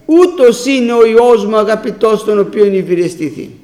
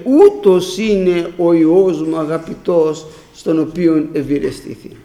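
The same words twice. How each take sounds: First: Proclaimed quote. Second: Quoting the Father. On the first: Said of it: "Ο Ιωάννης εδώ την άκουσε". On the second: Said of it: "που είπε". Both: Retold or imitated.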